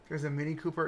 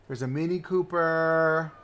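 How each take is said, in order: First: Said in the usual way. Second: Slow, stretched-out announcement; drawn-out delight. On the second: Real, not acted. Streamer points out a favorite car again, drawn-out delight. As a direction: draw out the last word with delight.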